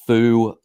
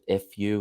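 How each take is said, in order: First: It is said as a single word. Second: It is said as two separate letters. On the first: This is the creator's own pronunciation. "is how I pronounce it" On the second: This is how other people like to say it. "is how other people enjoy pronouncing it"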